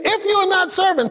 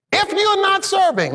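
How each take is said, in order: First: "If you're not serving" repeated with "you're" punched; stress on YOU'RE again. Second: "If you're not serving" with "you're" hit high; stress on YOU'RE. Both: Shown as a demonstration. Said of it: "let me say that again".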